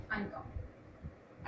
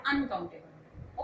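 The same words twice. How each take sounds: First: Slow, soft whisper. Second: Said in the usual way. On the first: Shown as a demonstration. Teacher recapping for her students in a slow whisper. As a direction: breathe the word out slowly as a hushed recap. Teacher repeats answer after long pause.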